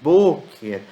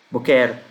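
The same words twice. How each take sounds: First: The stress falls on the first syllable. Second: The stress falls on the last syllable. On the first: The speaker calls it right. "A sílaba tônica é no B" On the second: The speaker calls it wrong. "poderiam ler isso aqui como boquer"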